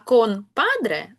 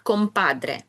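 First: The nasal before padre sounds like n. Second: The nasal before padre sounds like m. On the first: "«кон-падре» з батьком" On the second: "як «компадре»"

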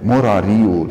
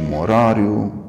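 First: The stress falls before the final i. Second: The stress falls on the final i. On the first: The speaker calls it wrong. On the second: The speaker calls it right. "ci ... cu accentul pe I"

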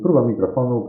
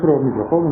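First: The voice is heard with a quiet background. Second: Loud passing traffic is heard behind the voice. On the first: "jest dużo ciszej, słychać w zasadzie tylko ptaki. Warunki w pomieszczeniu" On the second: "Jesteśmy nad ruchliwą ulicą, także jest dosyć głośno przejeżdżających samochodów"

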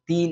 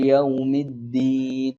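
First: The word begins with a soft, airy t sound. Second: The word has a firm d without breath. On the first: The speaker calls it wrong. "താ ആക്കി പറയുന്നുണ്ട്" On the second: The speaker calls it right. "കുറച്ച് അമർത്തിയിട്ട് കാറ്റ് പുറപ്പെടാത്ത രൂപത്തിൽ"

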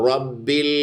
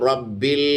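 Both takes have the same delivery.

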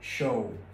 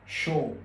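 First: It is pronounced the English way. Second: It is pronounced the French way. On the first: "tiếng Anh nó lại đọc là show" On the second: "lại đọc phát âm theo tiếng Pháp"

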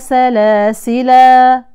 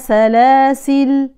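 First: The word ends with a long 'a' vowel. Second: The word ends on a bare 'l' sound. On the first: "أولا بالوقف" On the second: "بحذف الألف فنقف على اللام بالسكون"

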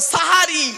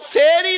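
First: The first vowel is an a sound. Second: The first vowel is an e sound. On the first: The speaker calls it right. "শব্দটা হলো সাহারি" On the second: The speaker calls it wrong. "সেহরি নয় শব্দটা"

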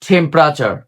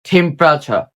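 The two takes are said the same way.

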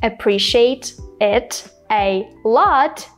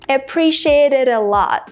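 First: The four words are said separately. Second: The four words are linked together. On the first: "So instead of saying appreciate it a lot" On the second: "I said appreciate it a lot. ... I connected all four words together"

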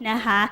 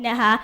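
The two takes are said the same way.

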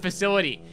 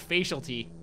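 First: The middle sounds like 'sill', as in facility. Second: The middle sounds like 'facial', as in facialty. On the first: The speaker calls it right. "There was a level in GoldenEye called the facility" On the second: The speaker calls it wrong. "I didn't know how to pronounce the word. So I call it the facialty"

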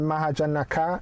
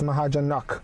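First: The name ends with an extra final vowel. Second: The name ends on a consonant, no final vowel. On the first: The speaker calls it wrong. "it's not Mahajanaka" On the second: The speaker calls it right. "it's Mahajanak"

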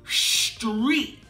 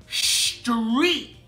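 No difference in how they are said.

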